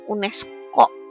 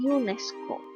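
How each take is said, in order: First: The word is said with an Indonesian pronunciation. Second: The word is said with an English pronunciation. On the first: The speaker calls it wrong. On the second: The speaker calls it right.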